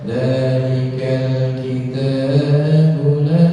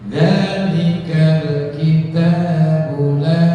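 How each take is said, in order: First: The final short vowel is held longer than others. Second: The short vowels are held for equal lengths. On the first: The speaker calls it wrong. "kita nggak boleh" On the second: The speaker calls it right. "harus sama waktunya. Dengerin"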